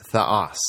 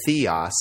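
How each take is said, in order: First: THEOS as "theh-OS", short e, stressed ending; Greek pronunciation. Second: THEOS as "THEE-os", long ee up front; English pronunciation. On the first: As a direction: say theos the Greek way, accent on the second syllable. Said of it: "but in Greek". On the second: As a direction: say theos the English way, like the start of theology. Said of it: "that's how we say it in English". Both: Shown as a demonstration.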